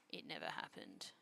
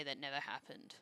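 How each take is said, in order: First: Very quiet, low, near-voiceless repeat; hushed denial. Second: Said in the usual way. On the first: Real, not acted. Streamer denying the burnt rice, hushed denial. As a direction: drop it right down under your breath.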